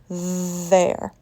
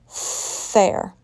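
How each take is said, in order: First: The first sound is a voiced th. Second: The first sound is a voiceless th. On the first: The speaker calls it right. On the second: The speaker calls it wrong. "if I pronounced there with a voiceless sound"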